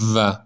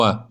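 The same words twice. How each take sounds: First: The w sound involves the teeth. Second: The w sound uses only the lips. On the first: The speaker calls it wrong. "نخونی و" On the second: The speaker calls it right. "بدون دخالت دندون فقط باید با لبها تلفظ بشه"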